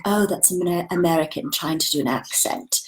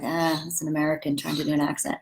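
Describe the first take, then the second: First: Put-on rough try at a British accent; attempted British accent. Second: Said in the usual way. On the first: Brits spotting an American actor, mock British accent. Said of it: "Except for they'll say it better". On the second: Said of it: "except for they'll say it like".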